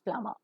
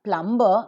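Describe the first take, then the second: First: The b sound is silent in the middle. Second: The b sound is pronounced in the middle. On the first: The speaker calls it right. "bur always remains silent" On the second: The speaker calls it wrong. "So it is not plumber"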